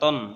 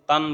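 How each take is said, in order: First: The vowel is kept short. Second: The vowel is drawn out long. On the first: The speaker calls it right. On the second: The speaker calls it wrong.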